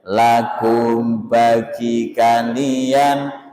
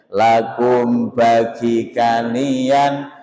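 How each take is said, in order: No difference in how they are said.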